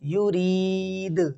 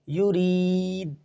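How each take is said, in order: First: The final d bounces with an echoing release. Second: The final d stops flat without an echo. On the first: The speaker calls it right. "बल्कि युरीद, युरीद इस तरह पढ़ना है" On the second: The speaker calls it wrong. "इसको इस तरह नहीं पढ़ना"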